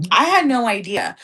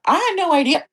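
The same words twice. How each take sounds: First: Said in the usual way. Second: Hiccups. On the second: Real, not acted. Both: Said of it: "I have the hiccups, guys".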